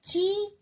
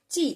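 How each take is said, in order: First: ची with the vowel held long, like बड़ी ई; wrong long i. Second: ची with a short, quickly released vowel. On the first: Teacher showing children what not to read, a drawn-out ची. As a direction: stretch the ई in ची. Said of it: "ची हम नहीं पढ़ेंगे". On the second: Teacher showing children the short matra, a short quick ची. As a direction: say ची quickly, cutting the ई sound short. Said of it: "जल्दी लेनी पड़ती है". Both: Shown as a demonstration.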